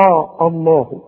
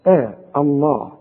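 First: آه الله with a thick open hamza; wrong heavy hamza. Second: آه الله with a thin light hamza; thin start on آه الله. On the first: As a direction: mistaken heavy start of آه الله. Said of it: "ما تقولش بقى". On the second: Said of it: "رقق الهمزة". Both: Shown as a demonstration.

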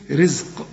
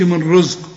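First: رزق said with a thin I, "rizq"; a clean short I after the R in رزق; light corrected vowel. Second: رزق said with a heavy, rounded "rozq" sound; wrong heavy vowel. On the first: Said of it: "لا، رز. شوف". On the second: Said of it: "ما تقولش". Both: Shown as a demonstration.

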